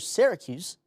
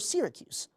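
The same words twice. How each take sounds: First: It is said the usual local American way. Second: It is said like the overseas city's name. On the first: "the way I just pronounced it" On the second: "like its namesake overseas"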